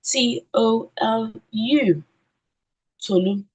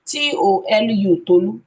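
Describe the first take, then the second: First: Slow "T O L U", grouped by syllable, then "Tolu"; spelled by syllables. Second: Wrong way: "T O L U, Tolu" rattled off as one string; letters run together. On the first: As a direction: spell "T O L U, Tolu" slowly with clear breaks. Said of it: "and then spell according to syllables". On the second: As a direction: spell "T O L U, Tolu" straight through without breaks, louder. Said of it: "on no account should you encourage them". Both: Shown as a demonstration.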